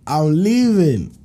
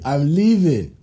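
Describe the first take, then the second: First: "I'm leaving" stretched slowly and deliberately; drawn out. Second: Said in the usual way. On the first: Shown as a demonstration. Telling the listener he'd walk out, slow emphatic "I'm leaving". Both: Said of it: "repeated slower".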